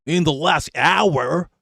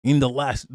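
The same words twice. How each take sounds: First: Slow, drawn-out mock Yankee accent, "hour" rising. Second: Said in the usual way. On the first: Streamer mocks the news reporter's Yankee accent, slow. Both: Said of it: "that Yankee accent is mad".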